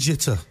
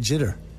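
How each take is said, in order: First: The word is said in a non-American accent. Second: The word is said in an American accent. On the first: This is how the singer says it. "you sing jitter" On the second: This is how people here say it. "that was a good American accent"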